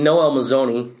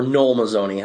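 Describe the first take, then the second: First: Noel said in two syllables, no-ELL; mispronounced name. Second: Noel said as one syllable, like "nole"; corrected name. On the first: Host slipping on the coach's name, Noel as no-ELL. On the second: Host correcting the coach's name, Noel as one-syllable "nole". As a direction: say "Noel" to rhyme with coal. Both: Real, not acted. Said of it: "I gotta stop saying Noel".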